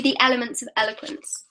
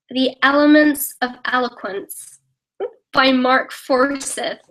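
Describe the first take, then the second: First: Said in the usual way. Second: Slow, deliberate American accent; put-on American accent, drawn out. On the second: Shown as a demonstration. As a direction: read the title slowly as an American. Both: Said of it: "Say something in an American accent".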